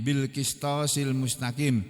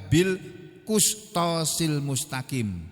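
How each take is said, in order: First: The vowel after the q sound is i. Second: The vowel after the q sound is u. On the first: "ini bikasril qaf dengan mengkasrah huruf qaf" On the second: "membacanya bidommihi dengan mendomahnya"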